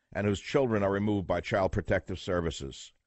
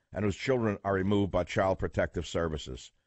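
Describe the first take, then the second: The two takes are said the same way.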